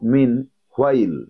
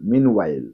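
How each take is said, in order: First: There is a breathy h sound before the w. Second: There is no h sound before the w. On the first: The speaker calls it wrong. "অনেকে বলো মিন হোয়াইল, হোয়াইল বলবে না" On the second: The speaker calls it right. "ওয়াইল"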